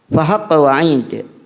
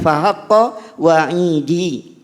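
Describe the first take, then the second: First: The last word ends on the consonant d. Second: The last word ends with an added i vowel. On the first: This is the reading in the Quran. "wa'id dalam harokatnya kasrah menunjukkan adanya wawu mutakallim yang dihapus" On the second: This is the reading outside the Quran. "Kalau bukan Al-Quran maka dibacanya"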